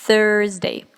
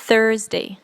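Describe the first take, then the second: Both takes have the same delivery.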